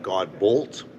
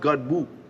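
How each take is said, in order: First: The second syllable ends with an l and t. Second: The second syllable ends in an open vowel. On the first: This is how people read the spelling. "I get God Bolt, which I kind of like" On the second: This is the French pronunciation the owner uses. "But it's pronounced God Boo, French"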